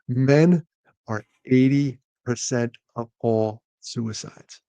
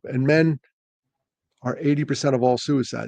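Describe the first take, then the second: First: It is said more slowly. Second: It is said rather fast.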